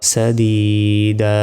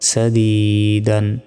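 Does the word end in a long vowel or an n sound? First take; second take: long vowel; n sound. First: The word ends in a long a without n. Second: The word ends in -an with a final n. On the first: "থামলে একটা জবরের উচ্চারণ হবে" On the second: "দাল আলিফ 2 জবর দান"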